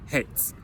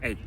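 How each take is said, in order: First: "hates" slowly, with the final s clearly heard; "hates" ending on a distinct s after the t; audible final S. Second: Said in the usual way. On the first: Shown as a demonstration. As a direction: draw out "hates" to show the s ending. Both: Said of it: "le S que t'entends à la fin".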